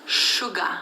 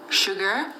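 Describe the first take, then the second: First: "sugar" ending in a plain "uh" with no R; R dropped. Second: "Sugar" with a clear R at the end. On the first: Showing the Kriol way, "sugar" without its R. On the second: Contrasting pronunciations for viewers, "Sugar" with its R. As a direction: say "Sugar" the standard way, R sounded. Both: Shown as a demonstration. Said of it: "We never say E R".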